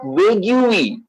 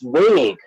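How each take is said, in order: First: The final 'ue' is sounded aloud. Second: The final 'ue' is left silent. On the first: The speaker calls it wrong. "So it's not vague" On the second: The speaker calls it right. "ue should be silent"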